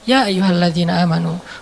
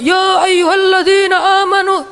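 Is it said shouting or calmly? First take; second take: calmly; shouting. First: It is said softly and relaxed. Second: It is said loudly, like shouting.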